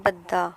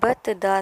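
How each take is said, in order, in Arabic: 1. يحل صوت دال واحد مشدد محل التاء. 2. يُسمع حرفان صامتان منفصلان: التاء ثم الدال. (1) "दाल पर तशदीद के साथ ज़बर है तो बद्दा बना" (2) "बतदा से"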